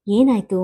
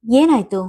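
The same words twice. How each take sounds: First: Tender, restrained question; gentle. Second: Higher, louder worried question; anxious. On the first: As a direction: ask kindly, easing off the worry. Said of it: "ಮತ್ತೊಮ್ಮೆ ಮೃದುವಾಗಿ ಕೇಳಿದರು". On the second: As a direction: press anxiously for what happened. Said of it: "ಆತಂಕ ತುಂಬಿದ ದನಿಯಲ್ಲಿ". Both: A narrator's reading.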